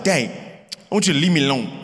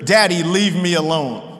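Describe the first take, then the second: First: Lightly imitated toddler, words run together; sweet little toddler. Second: "Daddy, leave me alone" quoted with each word distinct; very clear. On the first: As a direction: quote a little boy in a quick, low-key mumble. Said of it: "His sweet little voice is like". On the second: Retold or imitated. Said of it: "where he says very clear".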